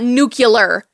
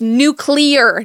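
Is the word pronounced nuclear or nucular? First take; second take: nucular; nuclear. First: It is pronounced nuke-yuh-ler. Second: It is pronounced new-clee-er. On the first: The speaker calls it wrong. "he said nuke yeller instead of nuclear" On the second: The speaker calls it right. "It's nuclear"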